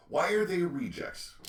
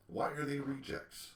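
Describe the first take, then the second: First: Much higher and louder, stress on are; indignant shout. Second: Said in the usual way. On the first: Real, not acted. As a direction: demand the answer, raised voice. Rhetorical question repeated louder.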